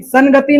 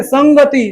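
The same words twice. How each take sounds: First: संगति said "san-gati"; tongue-tip n in संगति; wrong n sound. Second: संगति said "sang-gati"; nasal ng sound. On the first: Teacher shows what not to read, संगति with plain n. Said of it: "संगति नहीं". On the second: Teacher instructs the students, संगति with ng. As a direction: back ng before ग in संगति. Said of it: "तो आज के बाद तू लोग संगति पढ़ना". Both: Shown as a demonstration.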